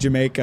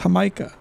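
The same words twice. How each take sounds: First: The word begins with a hard J sound. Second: The word begins with a soft Y-like sound. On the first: The speaker calls it wrong. "I knew it was going to be wrong to call it Jamaica" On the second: The speaker calls it right. "the J in Spanish tends to be pronounced like more like a Y"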